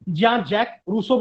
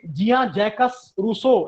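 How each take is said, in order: First: The word 'Jacques' ends without an s sound. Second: The word 'Jacques' ends with an s sound. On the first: This is how it is spoken. "क्या बोलते हैं उनको? जिया जैक Rousseau बोलते हैं" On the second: This is how it is written. "लिखा जाता है सामान्य लोगों के लिए"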